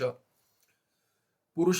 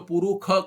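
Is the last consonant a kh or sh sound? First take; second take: sh; kh. First: The last consonant is an sh sound. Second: The last consonant is a kh sound. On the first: This is the Krishna Yajurveda reading. "Krishna Yajurveda में आएगा पुरुष, पुरुष करके उच्चारण होगा" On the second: This is the Shukla Yajurveda reading. "श बन जाता है ख ... शुक्ल यजुर्वेद में"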